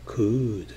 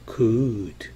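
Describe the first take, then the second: No difference in how they are said.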